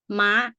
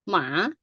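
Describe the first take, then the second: First: The syllable is said with a high tone. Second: The syllable is said with a rising tone. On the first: It means a horse. "it goes straight up, high tone" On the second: It means a dog. "rising right"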